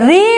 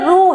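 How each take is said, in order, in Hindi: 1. यह अक्षर 'i' स्वर के साथ बोला जाता है। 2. यह अक्षर 'u' स्वर के साथ बोला जाता है। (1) "हिंदी में इसे री उच्चारित करते हैं" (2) "ओडिया में एक वर्ण है रू, तो ये रू है, लेकिन हिंदी में रू का उच्चारण नहीं होता है"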